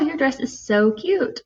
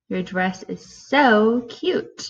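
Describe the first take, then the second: First: It is said in a warm, positive tone. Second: It is said in a cold, negative tone. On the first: It is meant as a compliment. "so you can say in a positive way" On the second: It is meant as an insult. "Or in a negative way"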